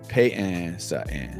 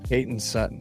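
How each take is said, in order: First: It is said in a South Jersey accent. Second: It is said in a standard accent.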